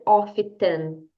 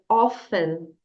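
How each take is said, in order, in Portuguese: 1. O som do T é claramente pronunciado. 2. O som do T fica silencioso. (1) "a letra T aqui, você não vai dizer often" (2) "você vai dizer often. Essa é a pronúncia correta"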